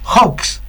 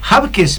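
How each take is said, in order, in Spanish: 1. El apellido se dice en una forma más corta y sencilla. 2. El apellido se dice en una forma más larga y complicada. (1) "más sencillo, yo la compliqué" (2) "No está tan bien dicho"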